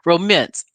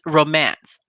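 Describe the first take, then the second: First: The second syllable is said like 'mince'. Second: The second syllable is said like 'mance'. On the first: The speaker calls it wrong. "R O M I N C E. That's how she pronounced it" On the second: The speaker calls it right. "it's romance, R O M A N C E, just for the record"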